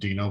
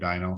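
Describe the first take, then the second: First: The first syllable sounds like 'dee'. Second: The first syllable sounds like 'dye'. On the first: The speaker calls it right. "the proper pronunciation is Dino" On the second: The speaker calls it wrong. "but I call it a dyno"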